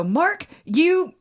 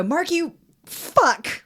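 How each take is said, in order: First: Said in the usual way. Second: Slow, high, drawn-out retort with a pause before the last word; a retold, half-mock frustrated outburst; slow frustrated insult. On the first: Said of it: "And I just go". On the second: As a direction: take your time and let the insult land. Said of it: "And I go".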